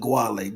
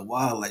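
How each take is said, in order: First: The name begins with a hard G sound. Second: The name begins with a Y sound. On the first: The speaker calls it wrong. "everybody pronounce it the Guale" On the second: The speaker calls it right. "pronounce the name with a Y"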